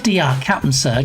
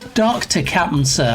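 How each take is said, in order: First: The title is spelled out as two letters. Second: The title is said as the full word doctor. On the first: The speaker calls it wrong. "It's not D R Captain Sir" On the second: The speaker calls it right. "Let's let's pronounce it right"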